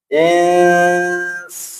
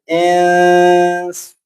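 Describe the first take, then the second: First: The n is hidden into the s, nasalized. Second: The n is hidden into the s, nasalized.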